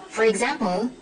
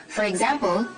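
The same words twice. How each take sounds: No difference in how they are said.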